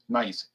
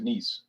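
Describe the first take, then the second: First: It is said like the English word nice. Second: It is said the French way, like niece. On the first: This is how the spelling looks. The speaker calls it wrong. "It looks like nice" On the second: This is how the locals pronounce it. The speaker calls it right. "but they pronounce it Nice"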